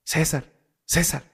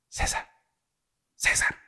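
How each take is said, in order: First: A bit louder, more insistent calling. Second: Hushed urgent calling of a name; soft calling. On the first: Boy calling his brother louder to wake him. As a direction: push the name out harder to wake him. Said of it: "le decía más fuerte". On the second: Boy gently calling his sleeping brother in the dark. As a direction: call his name softly so only he hears. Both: Retold or imitated.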